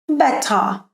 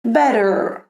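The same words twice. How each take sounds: First: "better" with a crisp T and no final R; British "better", like "bet-tah"; British clear T. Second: "Better" with a flapped D sound and final R; American "Better", like "bedder". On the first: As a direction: hit the T in "better", drop the R. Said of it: "Can you see the difference?". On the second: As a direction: flick the tongue through the T of "Better". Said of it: "no inglês americano tivesse um flap". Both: Shown as a demonstration.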